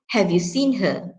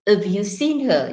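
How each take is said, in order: First: The h of have is clearly pronounced. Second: The h of have is dropped. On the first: The speaker calls it right. "you have to use the full form" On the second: The speaker calls it wrong. "You don't say"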